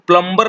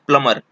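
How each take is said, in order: First: The b sound is pronounced in the middle. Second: The b sound is left out entirely. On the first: The speaker calls it wrong. "इसको प्लम्बर नहीं पढ़ा जाता है" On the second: The speaker calls it right. "इसको बोला जाता है प्लमर"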